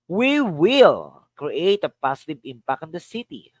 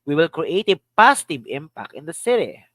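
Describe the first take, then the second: First: The word "will" carries the main stress. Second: The word "positive" carries the main stress. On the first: "Here's another. Will" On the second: "Another. Positive"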